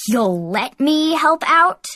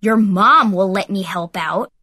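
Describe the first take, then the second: First: Slow, higher, incredulous retort; indignant snap. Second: Louder taunting put-down; mocking comeback. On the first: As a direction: throw the words back in disbelief. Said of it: "Heath snapped". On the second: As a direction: sneer it back as a jab. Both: A narrator's reading.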